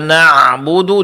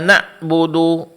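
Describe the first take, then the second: First: The middle consonant is a throaty ain sound. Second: The middle consonant is a clipped glottal stop. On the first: The speaker calls it right. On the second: The speaker calls it wrong.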